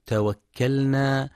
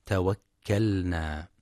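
First: توكلنا with the lam merged into the nun, as tawakkannā; wrong merged lam. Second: توكلنا with the lam sounded, as tawakkalnā; clear lam. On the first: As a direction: demonstrate the error in توكلنا. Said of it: "يخطئ بعضهم فيقرأ". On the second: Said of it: "والصواب إظهارها". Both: Shown as a demonstration.

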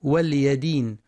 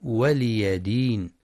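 First: ولي with the ل silenced, walyi; wrong sukun. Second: ولي with kasra on ل and fatha on ي, waliya; correct reading. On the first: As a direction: clip the ل of ولي with no vowel. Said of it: "بسكون اللام هكذا". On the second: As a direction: say ولي as wa-li-ya before دين. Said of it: "والصواب". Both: Shown as a demonstration.

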